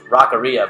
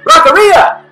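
First: It is said in a plain, flat way. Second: It is said loudly and excitedly.

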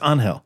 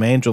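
First: The name is said with a Spanish pronunciation. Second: The name is said with an English pronunciation. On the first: This is how the name's owner says it. The speaker calls it right. "he says, no, it's Angel" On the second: This is the Americanized version of the name. The speaker calls it wrong. "She tries to call him Angel"

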